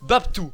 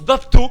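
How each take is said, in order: First: The name ends with an 'oo' vowel. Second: The name ends with an 'oh' vowel. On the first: The speaker calls it right. "ça se prononce Babtou" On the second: The speaker calls it wrong. "le premier qui prononce Babto"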